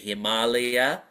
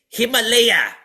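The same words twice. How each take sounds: First: It is said the Indian way. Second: It is said the American way. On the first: The speaker calls it right. "we say Himalaya" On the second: The speaker calls it wrong. "They say Himalaya"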